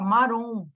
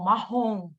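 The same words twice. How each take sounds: First: The R is a light tongue-tip tap. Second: The R is a rough sound from the throat. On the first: "Se você tirar um R, fica marrom" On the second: "Foi lá para minha garganta. Eu engoli o som"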